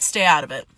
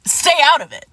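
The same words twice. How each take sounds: First: Said in the usual way. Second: "stay out of it" pitched up, then falling firmly; "stay out of it" as a pointed, high-starting command; emphatic warning. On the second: Real, not acted. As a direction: hit "stay out of it" higher and more forcefully. Repeats reply for emphasis.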